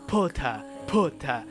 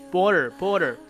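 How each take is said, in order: First: The t is crisp and no r is pronounced. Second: The t is voiced and the r is pronounced. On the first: "他们没有那个把舌头卷起来的，没有r 的读音，他们读一般都是这样读potter" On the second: "在美语当中其实都会把一些t，比如说t 爆破音……把它给浊化成的border"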